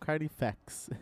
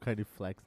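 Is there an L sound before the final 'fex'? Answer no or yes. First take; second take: no; yes. First: No L sound comes before the final syllable. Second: An L sound comes before the final syllable. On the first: The speaker calls it right. "É um Carnifex" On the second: The speaker calls it wrong. "eu sempre falo Carniflex"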